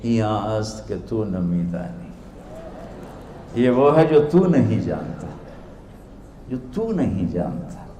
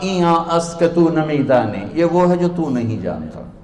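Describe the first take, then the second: First: Innocent. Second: Mildly haughty put-down; arrogant. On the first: Dervish returning the scholar's own words, soft innocence. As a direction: answer gently, in mock innocence. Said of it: "बड़ी मासूमियत से बोले". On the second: Scholar answering a rustic stranger, imitated arrogance. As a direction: imitate a proud scholar dismissing an ignorant man. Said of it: "उन्होंने बड़े तकब्बुर से कहा". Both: Retold or imitated.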